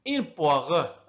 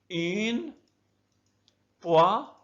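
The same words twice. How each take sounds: First: Said in the usual way. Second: "Une poire" split up, long gaps for repeating; syllable by syllable. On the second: Shown as a demonstration. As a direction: model "Une poire" one syllable at a time. (نطق "Une poire" مقطعًا مقطعًا مع وقفات) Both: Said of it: "أقسم الكلمة إلى مقاطع رئيسية".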